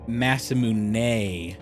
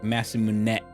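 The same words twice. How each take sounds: First: The S sound is long and drawn out. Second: The S sound is short and cut off. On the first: The speaker calls it wrong. "we have our S sounds kind of drawn out" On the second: The speaker calls it right. "they seemed to cut off. So it's more like Masamune"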